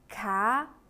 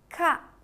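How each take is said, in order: First: The pitch rises from middle to high. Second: The pitch falls sharply from high to low.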